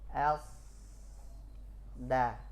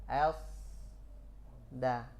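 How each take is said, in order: No difference in how they are said.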